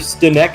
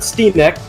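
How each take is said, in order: First: The first vowel is a short i sound. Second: The first vowel is a long ee sound. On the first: The speaker calls it right. "it's just [name]" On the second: The speaker calls it wrong. "not Steenek. We're not going to double E it"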